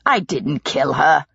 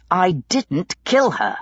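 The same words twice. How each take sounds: First: Slow, firm, a touch impatient; mildly exasperated denial. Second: Slow, held-back anger; restrained fury, kill stressed; through his teeth. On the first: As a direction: brush off the accusation, tired of it. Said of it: "Pitt said impatiently". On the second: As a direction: hold your temper and bite out every word. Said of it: "Pitt said between his teeth". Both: A narrator's reading.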